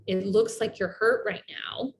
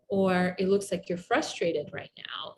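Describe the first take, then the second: First: Said in the usual way. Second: Whispered, with a falling end; whispered reflection. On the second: Shown as a demonstration. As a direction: whisper it gently to the hurt person. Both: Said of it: "my accurate expression".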